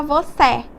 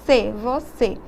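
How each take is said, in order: First: Você said with an open final É, like vocÉ; open é sound. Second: Você said with a closed final Ê, as the circunflexo marks; closed ê sound. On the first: Teacher contrasting the open sound with the circunflexo in você. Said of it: "É diferente de eu falar". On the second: Teacher showing students the circunflexo sound in você. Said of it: "Percebam o som". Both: Shown as a demonstration.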